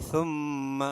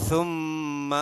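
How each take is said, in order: No difference in how they are said.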